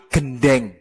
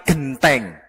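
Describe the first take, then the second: First: Gendeng with a soft d in the middle; Ponorogo gendeng. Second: Genteng with a crisp t in the middle, quiet; Surabaya genteng. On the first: Teacher gives how Ponorogo people say roof tile. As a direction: say gendeng with nd, not nt. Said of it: "menyebut yang ada di atap". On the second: Teacher gives how Surabaya people say roof tile. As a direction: say genteng with nt, not nd. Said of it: "menyebutnya bukan gendeng". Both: Shown as a demonstration.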